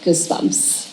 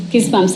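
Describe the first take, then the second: First: Whispered, barely voiced; hushed. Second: Said in the usual way. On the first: Patient feeling the release after breathing, hushed whisper. Patient's awed reaction, acted out.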